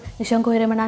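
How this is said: It is rattled off carelessly and casually.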